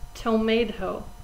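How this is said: It is said in an American accent. "we pronounce it in America tomato"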